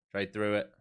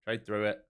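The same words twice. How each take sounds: The two takes are said the same way.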